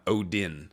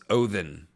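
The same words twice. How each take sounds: First: The middle consonant is a D sound. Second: The middle consonant is a TH sound. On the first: The speaker calls it wrong. "not Odin" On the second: The speaker calls it right. "pronounced with a hard T H. So it's Odin is actually how you say it"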